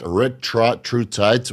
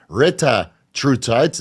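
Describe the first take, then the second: First: The word begins with 'retra', with an extra r. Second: The word begins with 'reta', with no extra r. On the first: The speaker calls it wrong. "not retra true tight" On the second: The speaker calls it right. "It's pronounced pronounced reta true tight"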